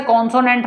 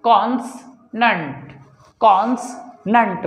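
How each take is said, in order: First: कॉन्सोनेंट with a full "o" in the middle; wrong pronunciation. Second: कॉन्सनेंट slowly, split as "cons - nant"; correct pronunciation. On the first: Teacher showing students how not to say consonant, wrong pronunciation. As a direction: say कॉन्सोनेंट as "con-so-nent", run together. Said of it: "इसे कॉन्सोनेंट नहीं बोलते". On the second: Teacher modelling consonant for learners, slow correct pronunciation. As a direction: say कॉन्सनेंट without the middle "o", slow and broken in two. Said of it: "इसे बोलेंगे हम". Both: Shown as a demonstration.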